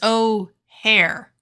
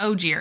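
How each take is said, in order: First: The name sounds like the airport 'O'Hare'. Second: The name does not sound like 'O'Hare'. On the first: The speaker calls it right. "it's like the airport" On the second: The speaker calls it wrong. "It's not Ogier"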